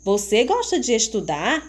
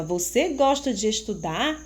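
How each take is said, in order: First: Rising tune on gosta and at the end; teacher demos a rising question; question intonation. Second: Gentle rise on gosta, ending up; teacher repeats the question with a rise; question intonation. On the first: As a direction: ask it as a real question, voice rising. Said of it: "Prestem atenção como eu vou ler". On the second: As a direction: read it as a clear question. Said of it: "Vocês observaram que eu fiz uma pergunta". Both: Shown as a demonstration.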